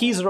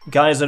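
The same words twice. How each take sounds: First: It is said with a British pronunciation. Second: It is said with an American pronunciation.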